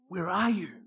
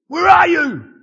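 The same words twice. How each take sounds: First: It is said in a tender, heartbroken tone. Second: It is said in an angry, accusing tone.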